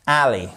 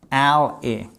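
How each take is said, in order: First: "Alley" said slowly and clearly, stress on the first syllable; pronouncing alley. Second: "alley" said with an open e, like "elle-y"; pronouncing alley. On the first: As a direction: model the word "Alley" for learners to repeat. ("Alley" prononcé lentement, accent sur la première syllabe) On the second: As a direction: give "alley" a different vowel, "èle". ("alley" prononcé avec un e ouvert) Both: Shown as a demonstration. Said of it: "alley, ok?".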